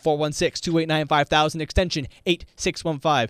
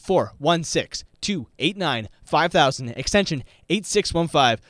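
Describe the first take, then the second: First: The number is read at normal speed. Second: The number is read slowly.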